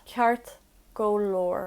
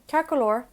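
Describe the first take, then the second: First: Ceart go leor stretched slowly; slow teaching repeat. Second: Said in the usual way. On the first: Shown as a demonstration. Teacher slows Ceart go leor for learners.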